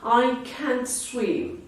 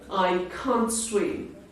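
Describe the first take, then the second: First: It is said in an American accent. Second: It is said in a British accent. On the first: "if you prefer American accent" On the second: "if you like British uh, accent"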